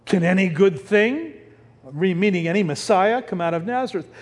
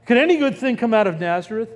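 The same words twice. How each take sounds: First: Said in the usual way. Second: Quick scoffing sarcasm; sarcastic. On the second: Retold or imitated. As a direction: toss it off fast, mocking the idea. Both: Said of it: "Because this is sarcasm".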